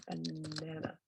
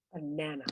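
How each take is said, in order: First: BANANA softly, middle NA held long; BANANA drawn out on the middle syllable; stress in the middle. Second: Said in the usual way. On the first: Shown as a demonstration. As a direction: lean on the second syllable of BANANA, slowly. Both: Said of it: "La entonación va ahí en el medio".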